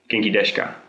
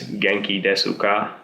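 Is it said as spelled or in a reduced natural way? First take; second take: reduced; as spelled. First: The syllables are reduced in natural speech. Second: Every syllable is pronounced fully, as written. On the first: The speaker calls it right. "but actually it's more like" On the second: The speaker calls it wrong. "you read it like this"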